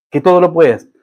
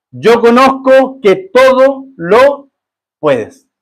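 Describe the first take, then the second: First: Said in the usual way. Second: Yo conozco que todo lo puedes, drawn out slow and high, stress on todo; slow emphatic quote. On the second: Shown as a demonstration. Pastor reading Job's words to God, slow and emphatic. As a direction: stretch the words out, leaning hard on todo.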